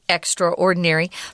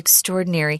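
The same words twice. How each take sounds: First: Extra is said fully, apart from ordinary. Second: Extra is reduced and blended into ordinary. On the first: Even more ordinary than usual. "I don't want to be extraordinary" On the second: Special and remarkable. "but I do want to be extraordinary"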